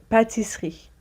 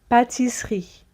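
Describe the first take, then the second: Both takes have the same delivery.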